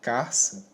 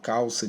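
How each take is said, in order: First: An r sound comes before the ça. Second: An l sound comes before the ça. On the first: The speaker calls it wrong. "elas estão é, erradas" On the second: The speaker calls it right. "a forma correta"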